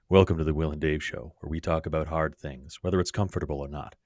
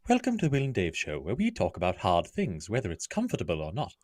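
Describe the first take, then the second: First: It is said in a low, sultry radio voice. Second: It is said in a Terry's Chocolate Orange ad voice.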